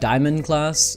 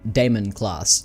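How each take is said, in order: First: The first word sounds like 'diamond'. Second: The first word sounds like 'Damon'. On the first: The speaker calls it wrong. "I was pronouncing it Diamond class" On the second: The speaker calls it right. "pronounced the same way that Matt Damon's name is pronounced"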